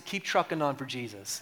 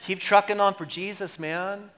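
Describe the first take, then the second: First: Said in the usual way. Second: Hippie voice. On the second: Shown as a demonstration. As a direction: say it like a chill hippie. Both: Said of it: "Let me say it like a hippie".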